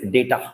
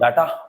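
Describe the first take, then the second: First: The first vowel sounds like 'ay'. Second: The first vowel sounds like 'ah'. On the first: The speaker calls it right. "It is डेटा" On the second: The speaker calls it wrong. "ये डाटा नहीं होता है"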